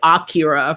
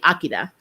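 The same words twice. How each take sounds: First: The middle consonant is an English-style R. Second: The middle consonant sounds close to an L. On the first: This is how English speakers say it. The speaker calls it wrong. "we say Akira for the movie" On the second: This is the Japanese way to say it. The speaker calls it right. "it's actually Akira"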